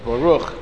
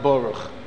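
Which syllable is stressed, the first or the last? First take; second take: last; first. First: The stress is on the last syllable. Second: The stress is on the first syllable. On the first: The speaker calls it right. "It's Milara, not Mileel, so it's Baruch" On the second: The speaker calls it wrong. "not Baruch"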